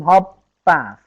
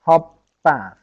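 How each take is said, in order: The two takes are said the same way.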